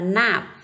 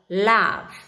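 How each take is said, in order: First: The word begins with an n sound. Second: The word begins with an l sound. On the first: The speaker calls it wrong. "Cái từ này không đọc là nạp" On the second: The speaker calls it right. "con chú ý cho cô là âm l"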